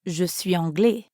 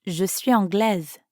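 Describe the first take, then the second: First: "anglais" ending open, no final z; the form an Englishman would use, "anglais" with nothing sounded at the end; masculine anglais. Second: "anglaise" with a clear final z sound; the form an English woman would use, "anglaise" ending in z; feminine anglaise. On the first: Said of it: "you'd say". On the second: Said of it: "an English woman would say anglaise". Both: Shown as a demonstration.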